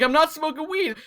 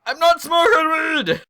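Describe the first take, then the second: First: High, defensive retold denial; high-pitched protest. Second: Slow, high, drawn-out mock shout; shouted protest. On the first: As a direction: protest in a much higher voice. Retold protest to angry mom. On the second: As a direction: yell the denial back, stretching it out. Retold denial escalates to a shout.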